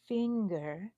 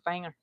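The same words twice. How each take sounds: First: Said in the usual way. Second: "finger" as "fayng-er", country Texan vowel; Texan-accented "fang-er"; own Texan accent. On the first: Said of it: "I could go". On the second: Shown as a demonstration. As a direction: say "finger" with a Texan twang, wide "a". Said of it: "that's not really me when I'm talking".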